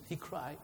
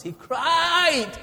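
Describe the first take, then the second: First: Held-back cry. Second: High, loud anguished cry; full cry. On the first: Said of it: "I don't want to shout". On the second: Preacher showing the rich man's cry to the church, high and loud. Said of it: "I don't want to shout because it will, it will burst your eardrums". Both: Shown as a demonstration.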